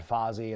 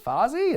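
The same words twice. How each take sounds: First: Said in the usual way. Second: High, rising puzzled question; baffled echo of an unknown name; puzzled query. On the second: Retold or imitated. Band baffled by the name of Jericho's group, puzzled.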